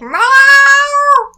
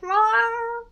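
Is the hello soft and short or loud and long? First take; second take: loud, long; soft, short. First: It is said very loudly and drawn out. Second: It is said softly and briefly.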